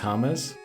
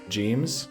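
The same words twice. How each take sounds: First: The name begins with an H sound. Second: The name begins with a J sound. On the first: "it's James" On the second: "Instead of James"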